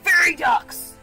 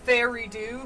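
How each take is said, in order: First: The name ends in a 'ducks' sound. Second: The name ends in a plain 'do' sound. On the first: "pronounced like Fairy Ducks" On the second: "like fairy tale redo"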